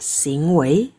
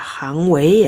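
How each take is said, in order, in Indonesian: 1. Suku kata pertama diucapkan xing. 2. Suku kata pertama diucapkan hang. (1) "dibaca xing wei ya" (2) "Bukan dibaca hang wei ya di sini"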